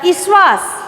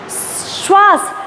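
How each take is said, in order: First: An extra vowel is added before the first consonant. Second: The word begins directly with the consonant cluster. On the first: The speaker calls it wrong. "तो वो बोलेंगे ईश्वास" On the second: The speaker calls it right.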